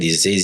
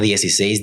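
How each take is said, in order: First: The word is mumbled through nearly closed teeth. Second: The word is articulated clearly and fluently. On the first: The speaker calls it wrong. "como que lo dice entre dientes" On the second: The speaker calls it right. "así fluidamente"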